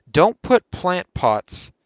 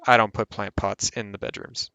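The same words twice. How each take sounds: First: Slow, stress on "put" in "Don't put plant pots", pitch raised; drawn out, leaning hard on "put"; emphatic warning. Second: Said in the usual way. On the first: Real, not acted. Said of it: "this is what I forgot to mention".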